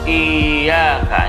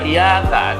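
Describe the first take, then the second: First: The y sound is doubled and held. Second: The y sound is single and short. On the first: The speaker calls it right. "Tapi dibaca iyyaka" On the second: The speaker calls it wrong. "itu salah jali itu... menghilangkan harokat tasydid"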